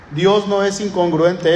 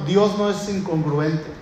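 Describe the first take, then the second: First: "Dios no es incongruente" stressed on "Dios", slower; emphatic repeat. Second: Said in the usual way. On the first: Shown as a demonstration. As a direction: repeat it slowly with "Dios" hit.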